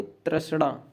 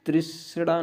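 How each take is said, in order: First: A sound after tr in तृष्णा; teacher modelling the tra- version; correct pronunciation. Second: I sound after tr in तृष्णा; teacher showing the tri- version; wrong pronunciation. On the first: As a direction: say तृष्णा as tras-na. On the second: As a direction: say तृष्णा as tris-na. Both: Shown as a demonstration. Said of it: "तृष्णा नहीं".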